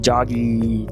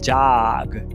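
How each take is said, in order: First: It ends with an extra I vowel after the G. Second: It ends on a short, dry G sound. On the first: The speaker calls it wrong. "e não jog ... botar o I epentético no final" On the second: The speaker calls it right. "é jog"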